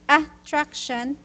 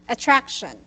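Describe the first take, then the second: First: The stress is not on the second syllable. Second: The stress is on the second syllable. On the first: The speaker calls it wrong. "instead of saying attraction" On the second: The speaker calls it right. "the here our stress is here attract"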